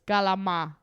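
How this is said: It starts with a g sound and drops the end.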